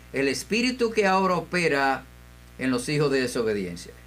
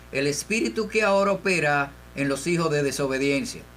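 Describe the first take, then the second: The two takes are said the same way.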